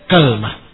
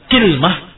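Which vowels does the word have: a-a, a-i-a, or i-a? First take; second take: a-a; i-a. First: The word starts with ka, with no vowel after l. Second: The word starts with ki, with no vowel after l. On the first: "fathul kaf ... bersama sukunul lam" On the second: "dikasrahkan kafnya ... bersama sukunul lam"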